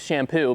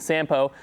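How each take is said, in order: First: The name begins with an SH sound. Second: The name begins with a plain S sound. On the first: The speaker calls it wrong. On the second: The speaker calls it right.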